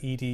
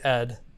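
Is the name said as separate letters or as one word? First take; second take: letters; one word. First: It is spelled out as two separate letters. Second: It is said as a single one-syllable word. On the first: The speaker calls it right. "I'm told that it's said E D" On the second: The speaker calls it wrong. "You don't say Ed. That's offensive"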